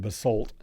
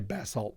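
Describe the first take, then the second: First: It is said in an American pronunciation. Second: It is said in a non-American pronunciation. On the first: "but Americans say basalt" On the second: "We can we can say basalt"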